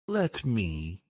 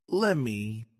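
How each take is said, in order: First: Said in the usual way. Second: "lemme" as let me with the t dropped; linked, t-less "lemme"; connected speech. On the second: Shown as a demonstration. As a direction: run it together as "lemme". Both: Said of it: "some examples of connected speech".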